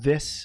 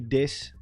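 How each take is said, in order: First: It is said with a standard English accent. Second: It is said with a Dutch accent. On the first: "We also don't say this" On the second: "we say this"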